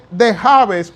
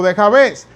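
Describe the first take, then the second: First: "Jabes" said JÁ-bes, stressed on the A; Spanish-style "Jabes", accent up front; first-syllable stress. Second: "Jabes" said ja-BÉS, stressed on the E; Hebrew-style "Jabes", accent at the end; final-syllable stress. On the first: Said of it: "La acento en la A". ("Jabes" con acento en la A, JÁ-bes) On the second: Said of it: "o la acento en la E". ("Jabes" con acento en la E, ja-BÉS) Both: Shown as a demonstration.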